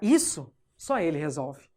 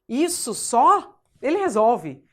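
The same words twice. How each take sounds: First: The pause comes after the word 'isso'. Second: The pause comes after the word 'só'.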